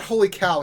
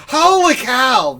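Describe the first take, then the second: First: Said in the usual way. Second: Loud, high, slow announcer whoop on Holy cow; Harry Carey. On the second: Retold or imitated. Host mocking chat's guess, booming baseball-announcer imitation. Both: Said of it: "Harry Carey is not doing".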